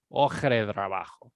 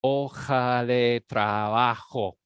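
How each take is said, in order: First: "hoja de trabajo" run together as one word; connected Spanish, no gaps in "hoja de trabajo"; merged together. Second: "Hoja de trabajo" slowly, syllable by syllable; teacher sounding out "Hoja de trabajo" in drawn-out syllables; syllabified. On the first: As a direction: say "hoja de trabajo" lower, syllables flowing into each other. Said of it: "it all merges together". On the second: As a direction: stretch each open syllable of "Hoja de trabajo", loud and even. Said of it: "look how different it is when you syllabify it". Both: Shown as a demonstration.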